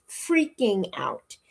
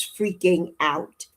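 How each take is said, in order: First: "freaking out" stretched slowly; drawn-out emphasis. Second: Said in the usual way. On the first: Real, not acted. Recalling her meltdown to viewers, "freaking out" slowly drawn out. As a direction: draw out "freaking out" at half speed.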